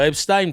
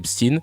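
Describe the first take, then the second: First: The ending is pronounced in the German way. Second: The name is pronounced in the English way. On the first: "y en a qui continuent de dire Epstein parce que ... on voit E I N, on dit Ein" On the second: "parce qu'en anglais, on dit Epstein"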